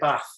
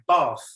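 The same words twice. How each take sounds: First: It is said in a northern English accent. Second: It is said in a southern English accent. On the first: "I'm originally from the north of England, and I would say bath" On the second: "you can also use in the U K bath"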